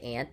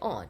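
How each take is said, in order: First: The word is said with an American accent. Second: The word is said with a British accent. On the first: "they don't say aunt" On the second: "the British people ... they say aunt"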